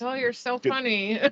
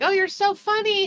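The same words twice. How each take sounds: First: The voice sounds flat and sarcastic. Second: The voice sounds delighted and sincerely amused. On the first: The joke is no longer found funny after many years. "twenty years later" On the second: The joke is truly enjoyed early in a relationship. "in the beginning of a relationship"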